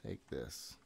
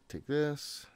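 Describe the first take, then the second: First: Muttered. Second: Said in the usual way. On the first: Real, not acted. Player placing gear, muttering quietly to himself. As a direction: lower and much softer, under the breath. Repeats under breath.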